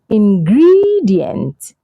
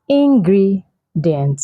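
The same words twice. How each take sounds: First: The stress is on the second syllable. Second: The second syllable is not stressed. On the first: The speaker calls it right. "the stress is on the second syllable, which is gre" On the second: The speaker calls it wrong. "I've heard a lot of people say it's ingredient. No"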